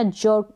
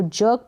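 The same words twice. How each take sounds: First: जर्क with a silent r; r dropped. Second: जर्क with the half r sounded; r pronounced. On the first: Teacher showing either reading is correct, r dropped in जर्क. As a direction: leave the r out of जर्क, vowel straight into k. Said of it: "और ना करें". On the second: Teacher showing either reading is correct, r pronounced in जर्क. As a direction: let a light r be heard in जर्क. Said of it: "र को आप pronounce करें". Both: Shown as a demonstration.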